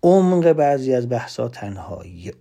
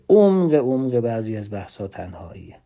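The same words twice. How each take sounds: First: Said in the usual way. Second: عمق repeated and leaned on, the rest even; stress on عمق. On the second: Shown as a demonstration. Speaker to audience, insisting on عمق by repeating it. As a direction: hammer the word عمق twice before the sentence.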